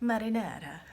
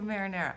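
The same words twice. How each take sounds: First: It is said with an Italian pronunciation. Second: It is said with an American pronunciation. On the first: "just like I wouldn't say marinara" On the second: "I just say marinara"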